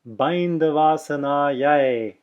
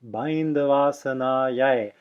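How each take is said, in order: First: The word ends with an 'eye' diphthong. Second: The same.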